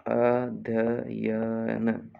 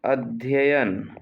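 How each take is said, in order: First: "अध्ययन" very slow, each syllable drawn out. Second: Said in the usual way. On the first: Shown as a demonstration. Teacher dictating a spelling, अध्ययन syllable by syllable. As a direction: stretch अ, ध्य, य, न in "अध्ययन". Dictation, word said then split.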